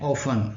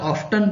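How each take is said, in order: First: The word is said without a t sound. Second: The word is said with a t sound. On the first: "સામાન્ય રીતે ઓફન બોલાય છે" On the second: "આનો ઉચ્ચાર ઓફટન પણ થાય છે"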